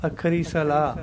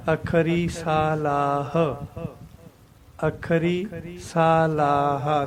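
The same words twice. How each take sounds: First: ਸਲਾਹ said short as səla, no long aa, no final h; wrong pronunciation. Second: Slow, ਸਲਾਹ with long saa, laa and a clear final h; correct pronunciation. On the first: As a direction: clip ਸਲਾਹ to a quick səla. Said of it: "ਇੱਥੇ ਸਾਡੇ ਕੋਲ ਗਲਤੀ ਕੀ ਹੁੰਦੀ ਹੈ". (ਸਲਾਹ ਨੂੰ ਛੋਟਾ ਸਲਾ ਬੋਲਣਾ, ਗਲਤ ਉਚਾਰਨ) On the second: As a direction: stretch ਸਲਾਹ into saa-laah with the h breathed out. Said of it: "ਇਸ ਤਰ੍ਹਾਂ ਬੋਲਣਾ". (ਸਲਾਹ ਨੂੰ ਸਾ ਲਾ ਹ ਪੂਰਾ ਖਿੱਚ ਕੇ ਬੋਲਣਾ) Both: Shown as a demonstration.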